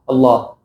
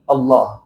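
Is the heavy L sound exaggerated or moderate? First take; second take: moderate; moderate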